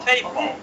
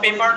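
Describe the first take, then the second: First: The p sounds have a strong puff of air. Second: The p sounds have no puff of air. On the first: The speaker calls it right. "মুখ থেকে একটু বাতাস বের হবে" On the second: The speaker calls it wrong. "পেপার না বলে"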